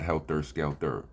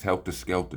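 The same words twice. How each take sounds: First: The last word ends in an 'er' sound. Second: The last word ends in an 'ah' sound. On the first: The speaker calls it wrong. "not E Rs" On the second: The speaker calls it right. "It's A H at the end of the words"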